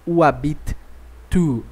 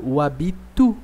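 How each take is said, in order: First: "o habite tu" with the T said twice, "habite" then "tu"; wrong double T. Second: "o habitu" run together with one T; single T. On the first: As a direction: show the clumsy double T. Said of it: "eu não falo". ("o habite tu" com dois sons de T separados) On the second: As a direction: glide "habite" straight into "tu". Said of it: "Eu falo". ("o habitu" com um só T, ligado) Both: Shown as a demonstration.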